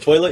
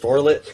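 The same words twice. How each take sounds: First: It is said in a plain accent. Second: It is said in a country accent.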